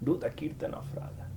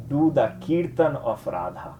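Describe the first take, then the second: First: Whispered; a soft whispered instruction. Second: Said in the usual way. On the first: Shown as a demonstration. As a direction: whisper it like a secret. Advice repeated as a whisper.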